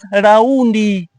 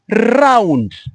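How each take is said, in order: First: An extra vowel is added at the end. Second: The r is strongly pronounced. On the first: "Tanzanians pronounce it as raundi" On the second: "Kenyans pronounce it as round. R is loud"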